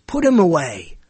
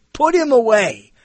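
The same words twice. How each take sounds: First: Said in the usual way. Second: Higher, slow mock dismissal of "Put him away."; "Put him away." dragged out as a weary verdict; fed-up people. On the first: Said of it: "so many people who say". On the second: Critics dismissing the host, slow and fed up.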